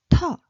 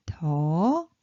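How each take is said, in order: First: Short "to" with a puff of air after the t; burst of air. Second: Soft 't' in "to", drawn out and rising; low soft consonant. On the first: Teacher reading out the syllable chart, airy burst on "to". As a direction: punch out an aspirated "to", cut short. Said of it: "burst of air". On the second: Teacher reading out the syllable chart, low soft "to". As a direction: say "to" long, starting low and gliding up. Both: Shown as a demonstration.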